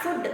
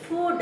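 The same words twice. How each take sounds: First: "food" with a short vowel, like "fud"; mispronounced food. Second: "food" with a long oo vowel; correct long oo. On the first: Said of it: "actually not food". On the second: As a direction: lengthen the oo in "food". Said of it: "It is food it is". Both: Shown as a demonstration.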